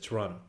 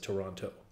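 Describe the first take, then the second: First: The second T sound is left out. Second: The second T sound is clearly pronounced. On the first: This is how locals say it. "you don't say the second T. ... That's how we say it" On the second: This is how people from elsewhere say it. "everybody else says Toronto"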